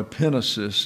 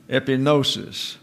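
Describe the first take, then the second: First: Epinosis with the stress on the middle syllable, the way it is written in Greek; Greek pronunciation. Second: Epinosis said plainly with a falling close; Greek word pronunciation. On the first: Teacher correcting epinosis to the Greek stress for his class. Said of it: "is the way it's pronounced in the Greek". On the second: Teacher saying epinosis to his class, falling close. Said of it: "or epinosis is the way it's pronounced in the Greek". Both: Shown as a demonstration.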